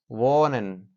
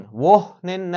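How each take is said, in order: First: وانن with a long o and no h; h left silent. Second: وهنن with the silent h wrongly sounded; wrong pronunciation. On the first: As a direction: say وانن smoothly, the h unpronounced. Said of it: "ای تلفظ نمیشه". (وانن با «او»ی کشیده، بدون تلفظ «ه») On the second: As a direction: say وهنن with an audible h breaking after the first syllable. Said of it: "وهنن نمیگیم. ای تلفظ نمیشه". (وهنن با تلفظ اشتباهِ «ه») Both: Shown as a demonstration.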